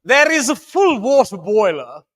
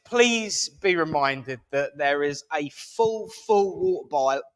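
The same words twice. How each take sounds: First: Lightly put-on posh English accent, higher and louder; mock posh English accent. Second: Put-on slipping into posh accent. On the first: Host redoing the notice, hammed-up posh English accent. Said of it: "use my proper accent". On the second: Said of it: "oh God, I'm doing it".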